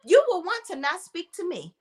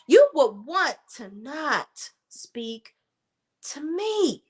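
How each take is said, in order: First: Said in the usual way. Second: "You will want to not speak" slowed right down, word by word; slow repeat. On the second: Shown as a demonstration. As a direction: spell it out slowly, as a warning.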